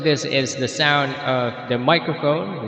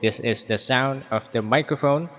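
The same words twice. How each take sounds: First: The voice has a moderate echo effect. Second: The voice has only a faint echo effect. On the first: "with echo in the default settings" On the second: "when you turn this very low"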